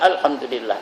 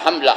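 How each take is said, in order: First: Every syllable of the phrase is clearly pronounced. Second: The phrase is slurred into a short clipped form. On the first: The speaker calls it right. "Tapi betul-betul lah alhamdulillah" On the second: The speaker calls it wrong. "Jangan hamlah"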